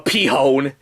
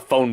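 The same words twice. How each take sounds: First: The word begins with a P sound, then H. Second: The word begins with an F sound. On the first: "P-hone, as I'm gonna call it from now on" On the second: "since when does a P and an H make an F noise?"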